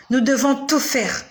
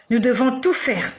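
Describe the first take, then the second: No difference in how they are said.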